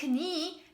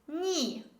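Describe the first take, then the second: First: The K at the start is pronounced. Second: The K at the start is silent. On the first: The speaker calls it wrong. "It's not knee" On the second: The speaker calls it right. "this is knee"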